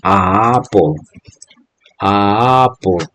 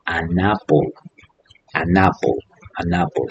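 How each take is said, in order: First: "a apple" slow, the two vowels run together; wrong article demo. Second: "an apple" with the N clearly linking to apple; softer, model the N bridging the vowels; teacher models it soft and neat; correct article demo. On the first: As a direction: drag out "a apple" so the clash is heard. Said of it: "no puedo decir". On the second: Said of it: "suena mejor teniendo esta N". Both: Shown as a demonstration.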